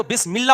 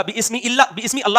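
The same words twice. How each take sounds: First: بسم اللہ linked as "bismillah", hamza dropped; joined reading. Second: بسم اللہ split as "bismi Allah", hamza sounded; wrong, unjoined reading. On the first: Teacher showing mid-speech rule, joined reading. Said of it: "کلام کے بیچ میں آئے گا". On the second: Teacher showing what is wrong, split reading. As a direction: break before اللہ, giving it a full initial a. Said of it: "نہیں ہوگا". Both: Shown as a demonstration.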